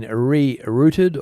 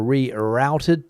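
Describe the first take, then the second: First: "rerouted" said as ree-ROOT-ed; root pronunciation. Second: "rerouted" said as ree-ROWT-ed; rout pronunciation. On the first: Presenter offering viewers one way to say it, "rerouted" as ree-rooted. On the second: Presenter offering viewers the other way to say it, "rerouted" as ree-rowted. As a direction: say "rerouted" with the middle rhyming with "out". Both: Shown as a demonstration. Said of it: "the way that you pronounce that word".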